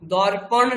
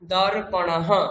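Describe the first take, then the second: First: The word ends without a final breathy echo. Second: The word ends with a final breathy 'ha' echo. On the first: The speaker calls it wrong. "দর্পণ নয়" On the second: The speaker calls it right.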